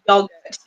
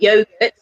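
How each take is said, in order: First: It is said in a British accent. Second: It is said in an Australian accent.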